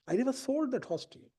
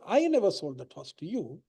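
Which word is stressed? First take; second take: sold; I. First: The word 'sold' carries the main stress. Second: The word 'I' carries the main stress. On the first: The horse was handed over without payment. "I didn't receive any consideration for it" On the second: Someone else sold the horse. "I'm saying it wasn't me, it was somebody else"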